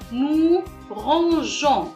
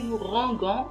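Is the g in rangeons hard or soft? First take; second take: soft; hard. First: The g is soft, like the s in measure. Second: The g is hard, like the g in go. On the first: The speaker calls it right. "il y a E O N S" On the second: The speaker calls it wrong. "si on n'a pas ajouté E, ça va se prononcer"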